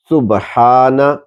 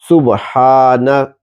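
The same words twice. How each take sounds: The two takes are said the same way.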